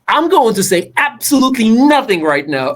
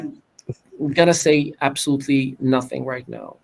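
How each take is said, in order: First: The voice rises and falls with energy. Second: The voice is flat with little variation. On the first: The words connect with listeners. The speaker calls it right. "Now check the difference" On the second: The words fail to connect with listeners. The speaker calls it wrong. "it's just eh, whatever"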